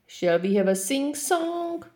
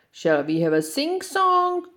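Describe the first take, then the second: First: High, unvoiced whisper of the little lion. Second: High, eager mock roar of the little lion. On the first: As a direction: ask it breathlessly, saving the voice. Lion saving his voice. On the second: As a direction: roar the invitation at the film crew. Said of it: "roared the little lion".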